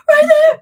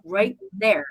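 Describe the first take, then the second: First: High, loud terrified shriek; shrieking at friends as the bear nears; horrified scream. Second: Said in the usual way. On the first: Retold or imitated. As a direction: scream it with horror and fear. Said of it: "You can hear the horror and fear in my voice". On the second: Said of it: "You can hear the horror and fear".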